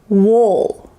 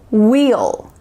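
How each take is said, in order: First: It has a lax, reduced 'oo'-like vowel. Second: It has a clear, full 'ee' vowel. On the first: "the lazy, relaxed style" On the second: "you could say wheel"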